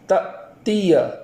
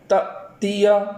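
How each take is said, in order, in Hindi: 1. पहले अक्षर के बाद आवाज़ एकदम रुक जाती है। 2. पहले अक्षर के बाद आवाज़ एकदम रुक जाती है।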